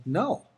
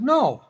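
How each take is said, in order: First: Said in the usual way. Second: Higher, louder, flat refusal; firm no. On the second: Retold or imitated. Refusing the coach's hook, a loud firm no. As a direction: plant your feet and refuse. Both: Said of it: "meaning that's, that's bullcrap".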